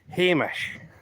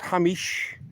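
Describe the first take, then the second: First: The name is said in a Scottish way. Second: The name is said in a non-Scottish way. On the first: The speaker calls it right. "That is the word that you use to call people" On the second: The speaker calls it wrong. "not Hamish"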